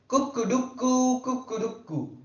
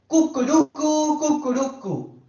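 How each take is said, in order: First: The crow is soft and gentle. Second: The crow is bold and loud.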